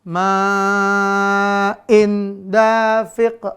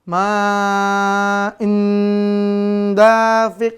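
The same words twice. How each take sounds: First: The n sound is pronounced clearly. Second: The n sound merges into the d. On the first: "Jangan sampai dibaca izhar" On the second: "Atau dibaca idgham"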